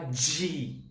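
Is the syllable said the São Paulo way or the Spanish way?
São Paulo. It is said with a São Paulo pronunciation. The speaker calls it wrong. "como aqui em São Paulo"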